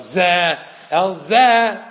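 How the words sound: There is a pause after the first zeh. This one calls, then to this one. The speaker calls it wrong. "sometimes the chazan goes like this. ... Wrong"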